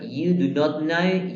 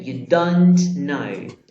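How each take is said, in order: First: Slow, careful full form. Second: Slow contraction; short form. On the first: Teacher showing students the full form, slow. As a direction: lay out every word slowly. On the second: Teacher showing students the short form, slow. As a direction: stretch out the contraction for the class. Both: Shown as a demonstration. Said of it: "Puede ser".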